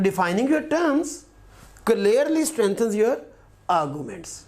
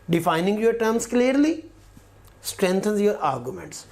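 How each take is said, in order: First: The pause falls before the word clearly. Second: The pause falls after the word clearly. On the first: The arguments are clearly strengthened. "एक बार चाहूँ तो मैं इसको भी qualify कर सकता हूँ" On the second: The terms are defined clearly. "एक बार तो मैं क्लियरली इसके साथ रखता हूँ"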